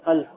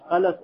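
First: No vowel is heard between the l and s. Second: A vowel is heard between the l and s. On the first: "а также с сукуном" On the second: "с фатхой, так, над, над буквой лам"

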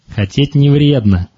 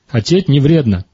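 First: It is said in a mocking, dismissive tone. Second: It is said in a warm, affirming tone. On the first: Your wishes are unrealistic and will not come true. The speaker calls it wrong. "И что мы в это время такому человеку говорим" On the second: Wanting things is genuinely fine and healthy. The speaker calls it right. "просто поменять интонацию этой фразы"

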